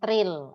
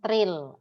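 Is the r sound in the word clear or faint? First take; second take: clear; clear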